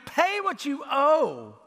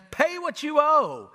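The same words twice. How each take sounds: First: Raised, slow, throttling demand, voice changed; harsh demand. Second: Raised, slow, menacing demand; harsh demand. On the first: Servant choking his fellow servant, harsh slow demand. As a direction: grab him by the throat with the words. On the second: Servant choking his fellow servant, angry slow demand. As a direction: squeeze the debt out of him. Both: Acted.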